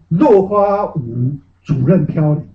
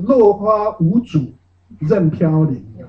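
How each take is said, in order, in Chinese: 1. “主任”连在一起，是一个词。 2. “主”和“任”分成了两个独立的部分。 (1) "我是断句断错了" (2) "是落花舞主任飘零"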